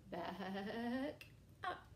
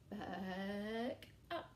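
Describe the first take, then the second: No difference in how they are said.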